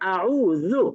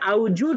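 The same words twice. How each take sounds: First: The middle consonant is an Arabic sound. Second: The middle consonant is a Bengali j/z sound. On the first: The speaker calls it right. "সেটা এখন হয়ে যাবে আউজু" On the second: The speaker calls it wrong. "যেটা আগে আউজু ছিল"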